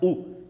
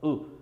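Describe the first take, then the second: First: The u vowel is full and strong. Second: The u vowel is weak and soft. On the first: The speaker calls it wrong. "não é u, igual a maioria nós falamos no português" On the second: The speaker calls it right. "Ele é mais fraquinho, assim, ó"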